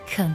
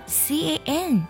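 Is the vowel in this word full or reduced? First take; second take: reduced; full. First: The word is said with a weak, reduced vowel. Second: The word is said with a full vowel.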